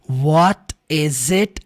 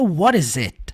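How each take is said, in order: First: The T is pronounced crisp and strong. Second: The T is flapped like an R sound. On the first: "O T enfatizado aqui" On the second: "O T ficaria com som de R. Numa junção seria"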